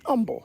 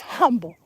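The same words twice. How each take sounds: First: The word starts without an h sound. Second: The word starts with a clear h sound. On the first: The speaker calls it wrong. "No, it's humble" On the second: The speaker calls it right. "Put an H on it, Mom. It's humble"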